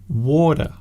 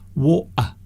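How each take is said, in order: First: The middle consonant is a soft d. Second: The middle consonant is left out entirely. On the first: "Some people use the D sound" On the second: "some people miss the the middle sound out completely"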